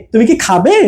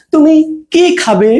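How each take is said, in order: First: Quick "তুমি কি", rise on "খাবে"; short "কি", yes-no question; fast attached কি. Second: "তুমি", pause, stretched "কি খাবে"; slower, weight on "কি" asking what; space before long কি. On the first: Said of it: "উচ্চারণটা ফাস্ট হবে". ("তুমি কি" দ্রুত একসাথে, "খাবে"-তে সুর ওঠে) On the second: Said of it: "একটু স্পেস দিয়ে কিটা". ("তুমি"-র পরে থেমে "কি" দীর্ঘ) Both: Shown as a demonstration.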